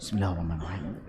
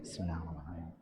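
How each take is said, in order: First: It is said loudly, clearly audible. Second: It is said quietly, barely audible. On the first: Other people can hear it too. The speaker calls it wrong. "jangan sampai ... Itu kedengeran sampai orang lain juga" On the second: Only the reader is meant to hear it. The speaker calls it right. "Baca dengan lirih itu begitu. Kedengeran untuk diri sendiri aja"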